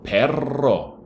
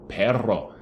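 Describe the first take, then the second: First: "Perro" said loud and high with a falling end; teacher modelling "Perro" with a falling end; model pronunciation. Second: "perro" repeated with its double R clearly sounded; teacher repeats "perro", stressing the RR; model pronunciation. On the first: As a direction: show the class how "Perro" sounds. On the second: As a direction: give "perro" its full double R. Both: Shown as a demonstration. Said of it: "two R's for the dog".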